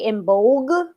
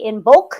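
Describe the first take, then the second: First: The word ends with a g sound. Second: The word ends with a k sound. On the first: "sometimes I'll say Imbolg" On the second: "sometimes I say Imbolc"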